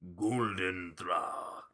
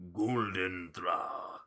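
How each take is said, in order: First: It is said in a big theatrical voice. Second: The same.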